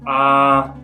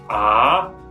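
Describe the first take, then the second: First: The pitch stays level and steady. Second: The pitch rises from low to high. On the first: "the first tone, the straight line" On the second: "kind of rises in pitch"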